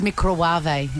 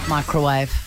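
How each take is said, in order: First: The word is said with an odd, imitated pronunciation. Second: The word is said with its usual pronunciation. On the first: This is how someone else says it. "She says microwave" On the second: This is the normal way to say it. "instead of microwave"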